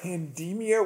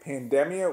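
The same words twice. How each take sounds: First: The word is said with a long E sound. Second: The word is said without a long E sound. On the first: It sounds more like hysteria. "I always call it pandemia with sort of a long E" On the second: This is how most people say it. "people keep calling it pandemia"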